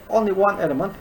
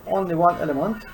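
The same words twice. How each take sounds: The two takes are said the same way.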